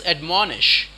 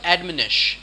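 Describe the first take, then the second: First: "admonish" as ad-MON-ish, stressed in the middle; correct pronunciation. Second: "admonish" as AD-min-ish, like "administer" cut short; mispronunciation. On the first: Teacher correcting the word, "admonish" as ad-MON-ish. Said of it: "It is admonish". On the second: Teacher showing what not to say, "admonish" as AD-min-ish. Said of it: "It's not admonish". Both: Shown as a demonstration.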